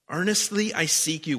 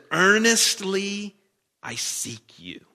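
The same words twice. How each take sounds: First: Said in the usual way. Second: Drawn-out plea. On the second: Acted. Reading the psalm's plea.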